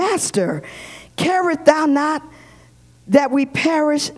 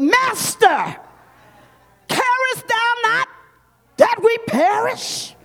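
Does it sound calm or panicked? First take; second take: calm; panicked. First: It is read calmly, without alarm. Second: It is said in a panicked, urgent way.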